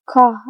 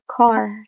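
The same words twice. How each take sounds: First: "ka" as car without its final R; R dropped. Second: "car" with the R clearly sounded; R pronounced. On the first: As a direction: say "ka", ending on an open vowel. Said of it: "car in middle class versus ka". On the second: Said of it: "Pronouncing R after a vowel". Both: Shown as a demonstration.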